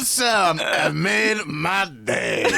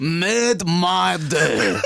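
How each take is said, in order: First: Slow, high mock French drawl; hammy French artist voice; French accent. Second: Slow, laughing mock French echo; French accent. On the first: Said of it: "French people are so mad at us". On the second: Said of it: "That's not how we speak".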